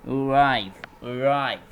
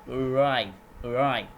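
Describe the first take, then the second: No difference in how they are said.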